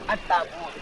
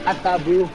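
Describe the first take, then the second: First: The word ends with a t sound. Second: The word ends with an h sound. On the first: This is the Quraysh way of reading it. "Orang-orang Quraisy membacanya At-Tabut" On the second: This is how Zaid read it. "Zaid membacanya At-Tabuh dengan hak belakangnya"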